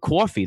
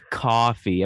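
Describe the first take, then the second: First: The word is said in a New Jersey accent. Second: The word is said in a plain, neutral accent. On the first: The speaker calls it right. "that's a drink right there" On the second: The speaker calls it wrong. "That evokes no emotion"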